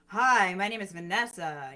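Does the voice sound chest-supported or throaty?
chest-supported. The voice is full and supported from the diaphragm.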